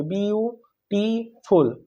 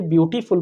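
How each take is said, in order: First: beautiful very slow, in three separate beats; slow syllable-by-syllable beautiful; broken into syllables. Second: Said in the usual way. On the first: Shown as a demonstration. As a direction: split beautiful into view, टी, फुल with pauses. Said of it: "एक बार से ज़्यादा हम use करेंगे". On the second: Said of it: "कैसे बोलेंगे".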